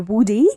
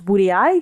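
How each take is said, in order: First: The word ends in a single 'ee' sound. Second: The word ends with an added 'eye' sound. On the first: "some pe- people pronounce uh" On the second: "some pe- people pronounce it as Woody I because it's got double I"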